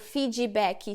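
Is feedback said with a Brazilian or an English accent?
Brazilian. Said the Brazilian way, with extra vowels added. "por que que a gente fala"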